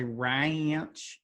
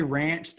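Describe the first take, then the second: First: Ranch stretched slowly into two syllables, rai-anch. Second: Said in the usual way. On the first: Shown as a demonstration. Host mocking people who say ranch in two syllables, stretched rai-anch. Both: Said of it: "they say it as two syllables".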